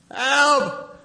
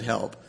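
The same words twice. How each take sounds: First: A terrified yelp of "Help."; panicked cry for help. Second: "Help." said low and soft, almost flat; a small, plain, subdued "Help."; low quiet help. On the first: Moses crying out to the Lord in high panic. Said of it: "that kind of prayer". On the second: Preacher quoting Moses simply, low and quiet. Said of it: "what Moses said". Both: Retold or imitated.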